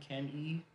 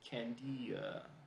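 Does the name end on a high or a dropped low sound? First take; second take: high; low. First: The name ends on a high sound. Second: The end drops low, sounding like an added vowel. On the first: "There's a high sound" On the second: "if I drop the sound after the E"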